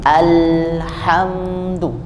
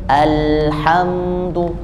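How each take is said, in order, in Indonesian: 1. Bunyi l mengalir dengan lancar. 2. Bunyi l mengalir dengan lancar.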